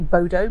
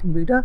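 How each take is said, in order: First: The name is said in an English-style way. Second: The name is said in a Norwegian-style way. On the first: The speaker calls it wrong. "we'd probably say Bodo" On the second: The speaker calls it right. "it's pronounced something like Buda"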